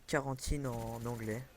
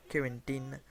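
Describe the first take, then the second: First: Said in the usual way. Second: Accent anglais essayé sur « Quarantine », vite abandonné; accent anglais raté. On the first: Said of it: "je vais pas faire l'accent anglais". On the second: Shown as a demonstration. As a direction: dis « Quarantine » à l'anglaise, sans conviction. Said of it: "je vais pas faire l'accent anglais, ça le fait pas". (« Quarantine » avec un accent anglais maladroit)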